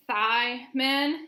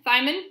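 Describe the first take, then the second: First: "thiamine" stretched out in two slow parts; sounded out. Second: Said in the usual way. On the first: Shown as a demonstration. Naming the vitamin for viewers, "thiamine" slowly sounded out.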